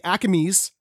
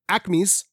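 First: It is said in a Philadelphia accent. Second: It is said in a general American accent.

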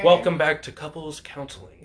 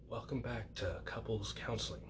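First: It is said in a booming announcer voice. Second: It is said in a hushed, smooth commentator voice. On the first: "with the announcer voice" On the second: "keep it smooth. Like how you hear like when they're playing golf"

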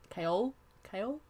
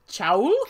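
First: The name sounds like the vegetable kale. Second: The name sounds like chowl, rhyming with owl. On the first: This is how the author says the name. "I'm pretty sure she said kale" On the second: This is how the name first seemed from reading it. "when I first read it, I was like, Chowl?"

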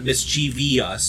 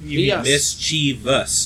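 First: The word ends with an added -vee-us syllable. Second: The word ends in a short -vous syllable. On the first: The speaker calls it wrong. "There is not another I-O-U-S in there" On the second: The speaker calls it right. "It's M-I-S-C-H-I-E-V-O-U-S"

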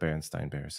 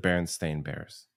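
First: The last syllable of the name sounds like 'stein'. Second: The last syllable of the name sounds like 'stain'. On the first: This is the version people remember. The speaker calls it wrong. "It's not the Berenstain Bears" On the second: This is the actual name. The speaker calls it right. "It's the Berenstain Bears"

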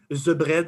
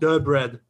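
First: 'The' begins with a Z-like sound. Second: 'The' begins with a D-like sound. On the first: This is how people in France say it. "in France, they put a Z ... in France we say the bread" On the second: This is how people in Quebec say it. "So in Quebec, ... they usually they put a D instead ... my parents would say the"

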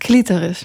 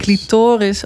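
First: The stress is on the first syllable. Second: The stress is not on the first syllable. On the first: This is the technical usage. "In het jargon is het clitoris. Met klemtoon op de eerste lettergreep" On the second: This is the everyday usage. "In de volksmond, ... Het meer clitoris"

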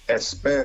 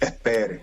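First: The s is pronounced as a full hiss. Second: The s is softened into a breathy h. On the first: "instead of saying espere" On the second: "they aspirate the S's"

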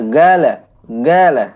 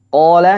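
First: The word starts with a hard 'g' sound. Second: The word starts with a deep throat 'q' sound. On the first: This is the everyday Gulf dialect form. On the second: This is the standard form used in Quran recitation.

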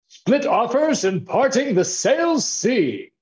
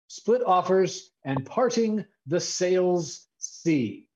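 First: It is said in a put-on aristocratic accent. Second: It is said in an ordinary speaking accent.

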